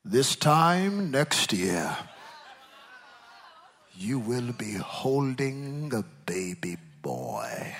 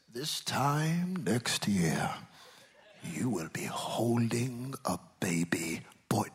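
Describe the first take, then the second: First: Slow, booming prophet proclamation. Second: Slow, breathy whispered prophecy; hushed whisper. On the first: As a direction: proclaim it like an Old Testament prophet. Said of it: "Let me get my prophet, prophet voice". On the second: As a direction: whisper the promise slowly. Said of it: "look at what he says". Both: Shown as a demonstration.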